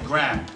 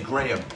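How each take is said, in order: First: It is said with an American accent. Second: It is said with an English accent.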